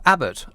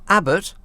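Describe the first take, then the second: First: Said in the usual way. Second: Abbott? rising and higher, in mock indignation; mock offended. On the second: Presenter mock affronted by a listener's bare surname. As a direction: repeat Abbott? as if insulted by it. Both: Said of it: "It's a bit rude".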